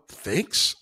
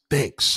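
First: "Thanks?" with a rising question tune; questioning rise. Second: Curt thanks. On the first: Shown as a demonstration. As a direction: ask "Thanks?" as if puzzled. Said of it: "with a question mark". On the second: Retold or imitated. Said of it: "that's rude".

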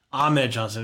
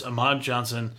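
First: "Ahmed" re-said with the corrected vowels; corrected name. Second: "Ahmad" said as a slip for Ahmed; misread name. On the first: Host fixing a misread match card, "Ahmed" corrected. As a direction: correct the slip, pronouncing it "Ahmed". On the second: Host reading out the match's losers, "Ahmad" mispronounced. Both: Real, not acted. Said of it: "excuse me".

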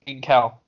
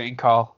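First: "Incal" with a front "a", like "in-KAL"; "Incal" offered as the alternative, ending in a short "a"; "Incal" rhyming with pal. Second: "Incal" with an open "ah", like "in-KAHL"; "Incal" ending in a back "ah" vowel; "Incal" rhyming with call. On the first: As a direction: say "Incal" so the end sounds like "pal". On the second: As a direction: say "Incal" so the end sounds like "call". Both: Shown as a demonstration. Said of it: "going back and forth between Incal and Incal".

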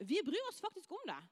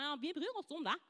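First: Earnest, higher-pitched insistence; sincere assurance. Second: Mock teacherly assurance; insincere teacher. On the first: Shown as a demonstration. School worker assuring doubting pupils, sincere. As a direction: insist that you truly mean it. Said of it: "Men oppriktig så gjør de det". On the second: Teacher telling pupils they care, mildly insincere. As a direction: imitate a teacher's half-meant reassurance. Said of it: "ikke sånn litt som du tror at læreren".

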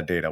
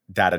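First: Data said as DAY-tuh; "data" starting like "day"; long-A pronunciation. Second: Data said as DAT-uh; "data" starting like "dat"; short-A pronunciation. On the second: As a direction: say "data" with the vowel of "cat". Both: Shown as a demonstration. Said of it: "data and data are different things".

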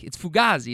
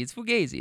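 First: Fugazi said foo-GAH-zee. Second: Fugazi said foo-GAY-zee. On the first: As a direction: say "fugazi" with an open AH in the middle. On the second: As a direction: say "fugazi" with a long AY in the middle. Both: Real, not acted. Says word two ways.

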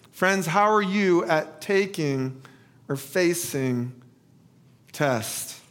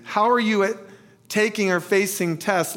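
First: First asking. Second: More flowing question with few pauses; asked differently. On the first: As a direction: leave gaps before the last words. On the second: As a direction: run the question through to its end. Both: Shown as a demonstration. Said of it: "ask this a little differently".

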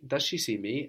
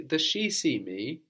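First: Weight on final "me"; stress on ME. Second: "she" pushed up high and stretched; slow question leaning on "she"; stress on SHE. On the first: Teacher prompting student for emphatic me, stress on "me". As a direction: save the emphasis for "me" at the end. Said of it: "emphasizing the word for me". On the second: Teacher prompting student for emphatic she, stress on "she". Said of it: "emphasizing the word for she". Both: Shown as a demonstration.

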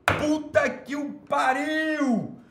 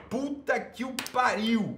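First: Much higher, slow drawn-out exclamation; hammed-up outraged cry. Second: Higher, slow, drawn-out exasperated cry; milk the outrage; theatrical outrage. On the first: Host outraged at a viewer's comment, hammed-up cry. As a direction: wail it out theatrically. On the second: Host outraged at a viewer's comment, hammed-up exasperation. Repeats outrage, louder manner. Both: Real, not acted.

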